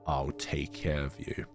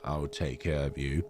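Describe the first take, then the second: First: It is said in a sinister Darth Sidious voice. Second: It is said in a kind, gentle voice.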